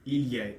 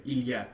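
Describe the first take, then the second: The two takes are said the same way.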